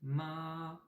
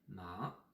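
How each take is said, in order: First: The pitch stays high and level throughout. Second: The pitch rises from mid to high. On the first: "on dirait un peu le la de la note musicale" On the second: "si on fait un deuxième ton"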